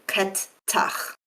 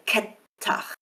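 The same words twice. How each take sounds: First: "ket tach" with both T's released separately; two separate T's. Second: "ket tach" with one long held T. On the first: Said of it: "pronounce both of these T's clearly". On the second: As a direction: hold the T longer in "ket tach". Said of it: "lengthen the T and say". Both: Shown as a demonstration.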